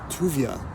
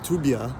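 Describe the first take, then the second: First: The middle consonant is a v sound. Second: The middle consonant is a b sound.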